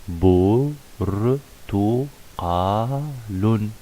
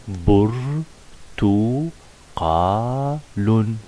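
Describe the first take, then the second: No difference in how they are said.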